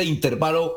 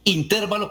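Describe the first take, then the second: First: Said in the usual way. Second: "intervalo" with the stress on TER; in-TÉR-va-lo for "intervalo". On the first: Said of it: "o se dice intervalo". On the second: Shown as a demonstration. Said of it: "con acento en la E".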